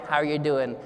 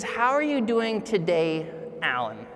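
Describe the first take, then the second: First: Flat, lower, mechanical How are you doing; robotic greeting. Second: Sincere, unhurried, leaning on today and the name; warm personal greeting. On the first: Speaker mimics the routine robotic greeting. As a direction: toss it off like a reflex. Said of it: "the robotic". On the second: Speaker shows the warm check-in versus the robotic one. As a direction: greet him like you mean it, name last. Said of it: "That's different than the robotic". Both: Shown as a demonstration.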